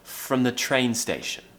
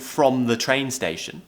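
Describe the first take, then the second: First: 'From' is reduced with a schwa vowel. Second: 'From' has a full, clear vowel. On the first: The speaker calls it right. "We're actually saying" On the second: The speaker calls it wrong. "we're not saying"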